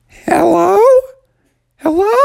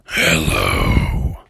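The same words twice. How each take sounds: First: Put-on high-pitched kid's call; Bubby calling out. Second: Very low, drawn-out scary voice; cave voice. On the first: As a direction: yell it high into the dark cave. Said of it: "Bubby yelled out". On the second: Acted. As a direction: rumble it from deep in the cave. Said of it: "And the voice said".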